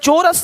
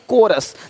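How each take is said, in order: First: The word begins with a ch sound. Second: The word begins with a k sound. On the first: The speaker calls it wrong. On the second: The speaker calls it right.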